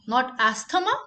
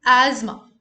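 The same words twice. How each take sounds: First: Asthma said ast-uh-ma with a hard t; wrong asthma. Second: Asthma said loud as az-ma, no t; correct asthma. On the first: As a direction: sound the t in asthma. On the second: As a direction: punch Asthma with a buzzing z. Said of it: "the emphasis should be on S". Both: Shown as a demonstration.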